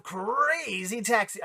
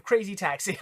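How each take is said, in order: First: Drawn-out, higher game-title shout-out, half-hearted imitation; attempted Crazy Taxi voice. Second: Said in the usual way. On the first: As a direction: stretch "Crazy" long and high, imitating the game's voice. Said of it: "I can't do that voice". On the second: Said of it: "I'm not even gonna try".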